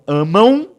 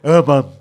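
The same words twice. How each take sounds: First: The word ends with a short u glide sound. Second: The word ends without a u glide sound. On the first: The speaker calls it right. "eu tenho um U escondido aqui" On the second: The speaker calls it wrong. "Você não falou amam"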